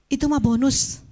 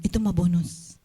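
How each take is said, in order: First: "mah" raised with a lifting tune; tossed off brightly, "Itu mah bonus"; "Itu mah bonus" with a higher, rising "mah"; playful emphasis. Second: Said in the usual way. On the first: Shown as a demonstration.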